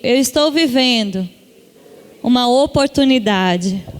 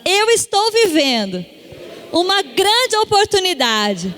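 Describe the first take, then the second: First: It is said in a calm, plain way. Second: It is said in a livelier, excited way.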